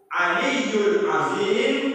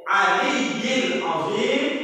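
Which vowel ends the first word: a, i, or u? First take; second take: u; i. First: The first word ends in an u vowel. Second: The first word ends in an i vowel. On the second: "itu pun boleh"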